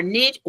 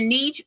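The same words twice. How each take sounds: First: Niche said with a short i, like "nitch"; "niche" with a short i sound; short-vowel pronunciation. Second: Niche said with a long ee, like "neech"; "niche" with a long ee sound; long-vowel pronunciation. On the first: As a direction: say "niche" to rhyme with rich. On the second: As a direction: say "niche" to rhyme with beach. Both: Shown as a demonstration. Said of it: "however you wanna say it".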